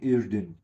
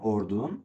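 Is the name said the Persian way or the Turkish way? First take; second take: Turkish; Persian. First: The name is said with Turkish pronunciation. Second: The name is said with Persian pronunciation. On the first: "ما میگیم اردن" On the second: "شما میگین اردن"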